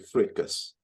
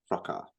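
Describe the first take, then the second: First: It is said in an American Southern way. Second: It is said in a standard British way. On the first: This is how people in the American deep south say it. The speaker calls it wrong. "if you're in the U S and you're like from the deep south, they say fracas" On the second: This is the accepted way to say it. The speaker calls it right. "the correct way to say it is fracas"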